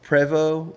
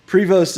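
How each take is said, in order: First: Prévost said the French way, silent s and t; Prévost, French-style with no final consonants; French pronunciation. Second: Prevost with the final s and t sounded; Prevost, plainly anglicized, rhyming its end with "most"; family's anglicized pronunciation. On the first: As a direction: say Prévost ending on an open "voh". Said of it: "like, French, it's". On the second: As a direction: say Prevost ending in a clear "st". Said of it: "is how we say it". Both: Shown as a demonstration.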